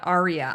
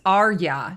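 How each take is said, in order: First: It is said like the word aria. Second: It is not said like the word aria. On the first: This is how the opera word is said. The speaker calls it wrong. "not Arya, like as in the opera" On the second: This is how the author says the name. The speaker calls it right. "he says it's Arya"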